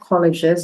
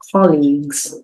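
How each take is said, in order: First: The g is said with a soft sound. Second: The g is said with a hard sound. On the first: The speaker calls it wrong. "It's not colleges" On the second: The speaker calls it right. "We get the hard G sound"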